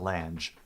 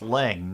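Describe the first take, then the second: First: The name is said with an extra final sound. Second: The name is said as one short syllable. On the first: The speaker calls it wrong. "not Lange" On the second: The speaker calls it right. "it's pronounced Lang"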